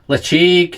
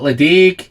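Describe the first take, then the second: First: The middle consonant is a throaty ch sound. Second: The middle consonant is a hard d sound. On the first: This is the native Gaelic way to say it. The speaker calls it right. "apparently is the correct pronunciation, the Gaelic pronunciation" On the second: This is the common everyday way people say it. The speaker calls it wrong. "A lot of people call it"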